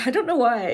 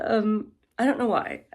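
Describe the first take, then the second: First: Said through a short laugh. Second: Said in the usual way. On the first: Real, not acted. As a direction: laugh it off, a bit embarrassed. Laughing at her own irritation.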